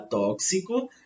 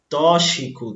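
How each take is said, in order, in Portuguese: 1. O x é pronunciado como ks. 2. O x é pronunciado como sh. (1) "o correto seria falar tóxico ... o som aí é o mesmo que ocorre em táxi" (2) "mas as pessoas falam tóxico"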